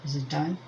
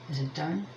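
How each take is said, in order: Both takes have the same delivery.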